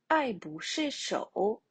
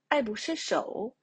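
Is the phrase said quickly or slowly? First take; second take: slowly; quickly. First: It is said slowly with even syllables. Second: It is said quickly with the last syllable stressed.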